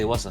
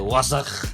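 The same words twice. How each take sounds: First: The word is said short and soft. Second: The word is said stretched out.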